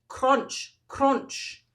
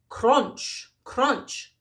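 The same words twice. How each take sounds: Both takes have the same delivery.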